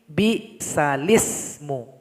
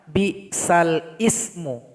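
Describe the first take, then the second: First: The 'i' is joined to 'l', giving 'li'. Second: The 'i' starts a new syllable after 'sal'. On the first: The vowel moves onto the preceding letter. "Jadi i menjadi li" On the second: This is the underlying form before the vowel moves. "Asal dari kalimat ini adalah"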